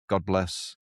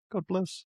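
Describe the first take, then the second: First: Said in the usual way. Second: High, soft put-on voice; mock sweet sign-off. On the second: Host testing a sign-off, high and soft. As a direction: try it out much higher and softer.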